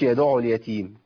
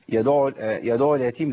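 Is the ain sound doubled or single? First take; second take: single; doubled. First: The ain sound is short and single. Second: The ain sound is held and doubled. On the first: The speaker calls it wrong. "ما قلتش يدع اليتيم" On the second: The speaker calls it right. "انا عندي العين هنا مشدده"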